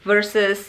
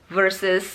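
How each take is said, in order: The two takes are said the same way.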